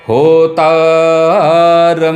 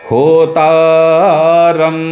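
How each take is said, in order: No difference in how they are said.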